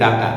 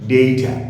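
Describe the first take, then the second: First: The first vowel sounds like 'ah'. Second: The first vowel sounds like 'ay'. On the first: The speaker calls it wrong. "অনেকে বলে ডাটা, আসলে ডাটা না" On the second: The speaker calls it right. "উচ্চারণটা হবে ডেটা"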